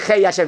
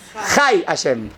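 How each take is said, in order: First: The first word has an 'ay' vowel. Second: The first word has an 'ah' vowel. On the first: The life belongs to someone separate from it. The speaker calls it wrong. "no se dice Hei Hashem" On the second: The one named and the life are the same. The speaker calls it right. "se dice Hai Hashem"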